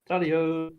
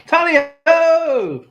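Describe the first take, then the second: First: Said in the usual way. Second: High, loud, drawn-out Tally-ho!; a slow, hearty Tally-ho! shouted high; excited cry. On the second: Real, not acted. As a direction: stretch out Tally-ho! like a hunting call. Cheering on finding a coin.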